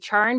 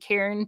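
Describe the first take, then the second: First: The name begins with a ch sound. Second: The name begins with a k sound. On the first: The speaker calls it wrong. "most people mispronounce his name. They say Charn" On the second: The speaker calls it right. "but it's actually Cairn"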